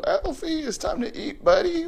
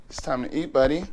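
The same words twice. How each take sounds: First: Very high, excited announcement; excited call. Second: Said in the usual way. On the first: Real, not acted. Owner telling the excited parrot it is time to eat, very high. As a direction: announce dinner like a party.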